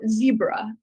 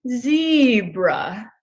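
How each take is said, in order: First: The word is said at normal speed. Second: The word is said more slowly.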